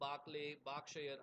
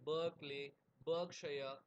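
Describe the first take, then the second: First: The first vowel sounds like 'ar' in 'car'. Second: The first vowel sounds like 'er' in 'her'.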